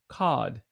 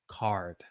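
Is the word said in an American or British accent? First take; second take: British; American. First: It is said without an R sound. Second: It is said with a hard R sound. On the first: "some British folk may say cod. That sounded pretty good" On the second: "Americans will say card"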